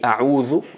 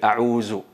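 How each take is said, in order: First: The middle consonant is a soft th sound. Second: The middle consonant is a z sound. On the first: The speaker calls it right. "a'udhu me, me refugio en Allah" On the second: The speaker calls it wrong. "cambian el dal con el zay ... totalmente incorrecto"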